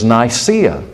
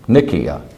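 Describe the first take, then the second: First: The name is said in an English way. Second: The name is said in a non-English way.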